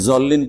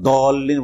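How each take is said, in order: First: The first consonant sounds like a z. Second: The first consonant sounds like a plain d. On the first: "জল্লিন পড়ে দেন" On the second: "দাল বানিয়ে দিলেন"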